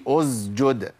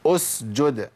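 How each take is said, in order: First: أسجد with the s voiced into a z; wrong, as zay. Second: أسجد with a clear hissed s; correct seen. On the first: Teacher showing students the error, أسجد with z. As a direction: buzz the seen of أسجد like a z. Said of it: "ما قولش". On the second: Teacher modelling for students, أسجد with clean s. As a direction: keep the s of أسجد voiceless. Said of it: "ما قولش أسجد". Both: Shown as a demonstration.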